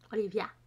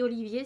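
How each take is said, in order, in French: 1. Le nom se termine par un son 'ah'. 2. Le nom se termine par un son 'ay'. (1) "ça se dit Olivia" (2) "ça s'écrit Olivier"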